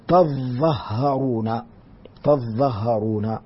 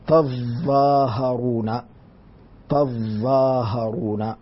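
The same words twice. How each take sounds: First: تظهرون slowly, no alif after the ظ, doubled ظ and ه; Nafi reading. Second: تظاهرون slowly with a doubled, stressed ظ; doubled dha. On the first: Teacher demonstrates Nafi's reading of تظهرون, slowly. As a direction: say تظهرون slow with short dha and stressed ha. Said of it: "وأما قراءة نافع". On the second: Teacher shows Ibn Amir's reading with doubled dha, slowly. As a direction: lean hard on the ظ in تظاهرون, slow and deliberate. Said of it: "لكن بتشديد الظاء". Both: Shown as a demonstration.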